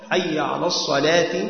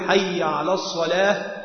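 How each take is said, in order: First: The last word ends with a short i vowel. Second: The last word ends without any final vowel. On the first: The words are fully declined with case endings. "لزمه أن يعرب الصلاة والفلاح بالخفض" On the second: The words are said in pausal form without case endings. "يجزم"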